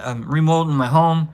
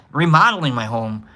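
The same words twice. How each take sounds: First: Says "remolding" as re-MOLD-ing, like mold on walls; "remolding" with a long o, as in mold; slip of the tongue. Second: Says "remodeling" properly as re-MOD-el-ing; "remodeling" fixed, re-MOD-eling; self-correction. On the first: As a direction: trip over "remodeling" and say "remolding", rhymes with folding. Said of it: "and remolding?". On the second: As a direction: catch the slip and say "remodeling" right, with the short o of model. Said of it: "You mean remodeling?". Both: Real, not acted.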